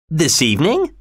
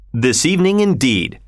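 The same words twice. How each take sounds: First: Higher, rising in disbelief; startled higher query; surprised question. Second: Even, falling, settled; unruffled falling reply; calm confirmation. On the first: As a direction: ask it as if he can't believe it. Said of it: "asked Mister Stewart". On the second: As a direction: answer it coolly, closing the matter. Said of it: "replied Mister Fogg". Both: Acted.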